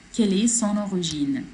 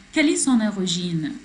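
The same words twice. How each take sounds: The two takes are said the same way.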